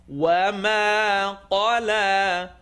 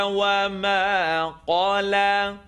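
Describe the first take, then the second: The two takes are said the same way.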